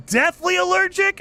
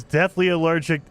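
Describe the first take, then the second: First: Very high-pitched, incredulous echo; startled, pitch shooting way up; shocked disbelief. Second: Said in the usual way. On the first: Real, not acted. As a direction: repeat "deathly allergic" as a stunned question. Reacts to the message just read.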